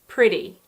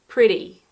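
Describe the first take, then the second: First: American accent, with a D-like T sound. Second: The same.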